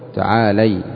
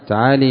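First: The l is followed by an a vowel. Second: The l is followed by an i vowel. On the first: The speaker calls it right. "بفتح ماذا؟ اللام" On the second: The speaker calls it wrong. "بالكسر"

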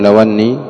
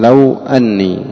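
First: The words run together with no glottal stop. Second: A glottal stop separates the two words. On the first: "وقوله لوني" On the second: "أصلها لو أني"

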